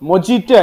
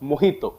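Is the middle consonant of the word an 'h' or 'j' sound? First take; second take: j; h. First: The middle consonant is a 'j' sound. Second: The middle consonant is an 'h' sound. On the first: The speaker calls it wrong. "മൊജിറ്റോ അല്ല" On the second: The speaker calls it right. "The pronunciation is മൊഹിത്തോ"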